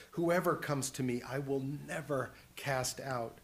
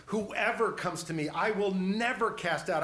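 First: Said in the usual way. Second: Louder, higher, punching "never"; emphatic repeat. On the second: Acted. Preacher assuring the congregation from Jesus's words, emphatic. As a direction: drive home "never cast out" with force.

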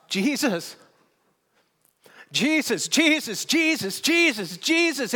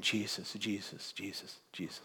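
First: Much higher, louder exultant shouts; repeated shouted cry of Jesus; shouting the name. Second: Much softer, lower, fading away; quiet fading repetition of Jesus; softly repeated name. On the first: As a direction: cry the name out in joyful praise. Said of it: "he just shouts". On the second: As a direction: let it fall to a hush. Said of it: "in his own way is standing on a stage saying". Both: Retold or imitated.

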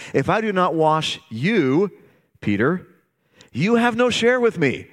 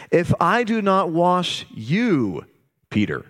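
First: You pressed and no lifted high; preacher to congregation, pitching the word no high; stress on you and no. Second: Slow, with the word I leaned on and held; preacher to congregation, slowly pressing the word I; stress on I. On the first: Stress you, then ring out no. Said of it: "He's saying". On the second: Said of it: "He's not talking about his feet anymore". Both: Shown as a demonstration.

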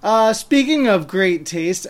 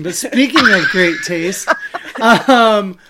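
First: Said in the usual way. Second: Said again through a laugh; louder, laughing segue. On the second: Shown as a demonstration. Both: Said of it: "how this is gonna work as a transition".

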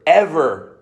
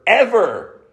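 First: "ever" held level and falling; "ever" said level, falling at the end; steady ever. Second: "ever" pitched higher, then falling; "ever" lifted high at the start; rising ever. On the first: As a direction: let "ever" land evenly. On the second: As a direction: push "ever" up in pitch for the last one. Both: Real, not acted. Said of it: "No, never, ever, ever".

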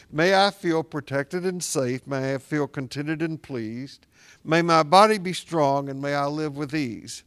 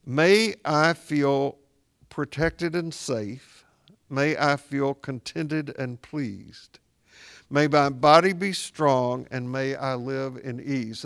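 First: Said in the usual way. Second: Slow, measured prayer voice, each phrase set apart; slow prayer recitation. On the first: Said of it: "But I say it again". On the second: Shown as a demonstration. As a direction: recite it slowly like a blessing. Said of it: "to go like this".

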